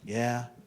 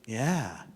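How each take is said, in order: First: It is said flatly, without enthusiasm. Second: It is said eagerly, with enthusiasm.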